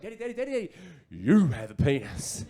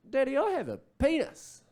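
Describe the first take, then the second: First: Put-on excited little boy. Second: Put-on high-pitched toddler voice; little boy. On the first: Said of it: "he picked up on my excitement". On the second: Two-year-old son to dad in the shower, high childlike announcement. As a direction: toddler announcing a discovery to daddy. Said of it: "just out of the blue, he just goes".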